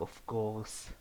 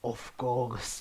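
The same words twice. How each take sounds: First: It is said in a breathy, seductive voice. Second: It is said in a plain narrating voice.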